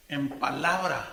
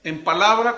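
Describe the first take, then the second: First: En palabra said low and slow, falling; lower repeat. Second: Loud, emphatic palabra; stressed word. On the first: Preacher repeats the verse, low and measured. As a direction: let palabra drop low and settle. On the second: Preacher to the congregation, stressing palabra loudly. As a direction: hit en palabra hard and loud. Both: Shown as a demonstration.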